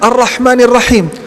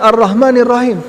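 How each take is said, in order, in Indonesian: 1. Bunyi h itu bunyi tenggorokan yang kuat dan berdesah. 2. Bunyi h itu bunyi yang ringan dan biasa. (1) "Coba kita lihat Ar-Rahmanir Rahim" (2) "Banyak di antara kita tidak mampu membacakan ha, dibacakan"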